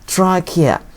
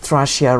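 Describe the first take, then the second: First: The middle consonant is a hard k sound. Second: The middle consonant is a soft ch sound. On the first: The speaker calls it right. "This pronounced K" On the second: The speaker calls it wrong. "Don't pronounce it trachea wrong"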